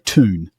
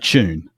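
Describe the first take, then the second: First: It starts with a plain t, no y glide. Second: It starts with a ch sound. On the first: "what Americans would probably say" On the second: "that then becomes actually a ch sound in, in many dialects, including my own"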